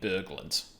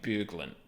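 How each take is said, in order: First: The first vowel sounds like 'burr'. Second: The first vowel sounds like 'boo'. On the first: "pronouncing it similarly to B U R" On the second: "so more of a U sound"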